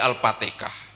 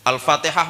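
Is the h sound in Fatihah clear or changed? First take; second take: changed; clear. First: The h sound is changed to a Javanese sound. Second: The h sound in the word is clearly pronounced. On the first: This is how people in Solo say it. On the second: This is the original recitation.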